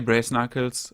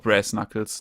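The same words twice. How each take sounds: First: The first word rhymes with 'brace'. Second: The first word rhymes with 'brass'. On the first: "Like brace" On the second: "or brass?"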